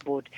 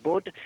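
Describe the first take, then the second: First: Said in the usual way. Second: Bud with a short rounded vowel, like "good"; host showing off his Northern way of saying Bud; Northern English Bud. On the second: Shown as a demonstration. Bud said with a Northern English vowel. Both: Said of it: "It's my Northern English accent".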